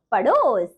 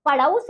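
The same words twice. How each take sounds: First: पड़ोस with a long pure "o"; correct pronunciation. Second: पड़ोस with an "au" vowel, "padaus"; wrong pronunciation. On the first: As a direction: hold a round o in पड़ोस. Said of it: "और शुद्ध शब्द". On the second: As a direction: widen the second vowel of पड़ोस to au. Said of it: "आपको कुछ अशुद्ध शब्द". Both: Shown as a demonstration.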